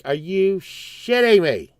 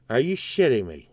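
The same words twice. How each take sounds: First: Higher, slow, stretched swearing; incredulous outburst. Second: Lower, deflated repeat; subdued disbelief. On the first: Customer finding his donut shop closed, incredulous outburst. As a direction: draw out the swear, pitched up in disbelief. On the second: Customer absorbing the donut shop's closing, subdued disbelief. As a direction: say it low, letting it fall. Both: Retold or imitated.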